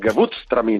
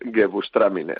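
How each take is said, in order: First: It is pronounced the German way, harshly. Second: It is pronounced the Spanish way. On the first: "pronunciar en alemán, pues igual, pero con mala leche" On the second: "Yo, españolizado, es"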